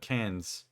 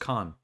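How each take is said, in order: First: The word ends with an audible s sound. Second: The word ends without any s sound. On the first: The speaker calls it wrong. "You're not supposed to say the S at the end of" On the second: The speaker calls it right. "It's just can"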